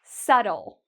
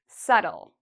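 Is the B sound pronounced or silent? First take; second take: silent; silent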